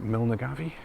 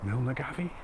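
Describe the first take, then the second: First: The name is said with four syllables. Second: The same.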